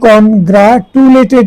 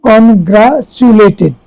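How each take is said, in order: First: The middle consonant is a plain 't' sound. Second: The middle consonant is a 'ch' sound. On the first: The speaker calls it wrong. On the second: The speaker calls it right.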